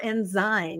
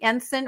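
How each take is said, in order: First: The word ends with a 'zyme' sound. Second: The word ends with a 'sign' sound.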